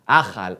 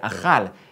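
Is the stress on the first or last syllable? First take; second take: first; last. First: Ashkenazi accent, stress on first syllable. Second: Modern accent, stress on last syllable.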